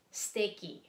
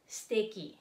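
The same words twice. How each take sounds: First: The vowel after the first s is dropped. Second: The same.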